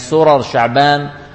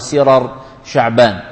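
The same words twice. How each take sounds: First: The first syllable has the vowel a. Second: The first syllable has the vowel i. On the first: "الفتح" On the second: "الكسر"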